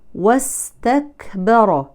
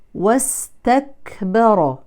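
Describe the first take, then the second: Both takes have the same delivery.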